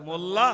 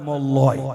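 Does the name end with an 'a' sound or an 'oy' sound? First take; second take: a; oy. First: The name ends with an open 'a' sound. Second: The name ends with an 'oy' sound. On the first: The speaker calls it right. "কোথায় মোল্লা" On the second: The speaker calls it wrong. "কোথায় মোল্লয়। সর্বনাশ"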